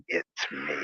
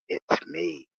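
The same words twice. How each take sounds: First: Low, hushed mock-sinister "It's me.". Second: Said in the usual way. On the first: Shown as a demonstration. Greeting the mail lady at the door, mock sinister. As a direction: creep the words out low and soft, as a playful menace. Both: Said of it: "kinda a sinister, like".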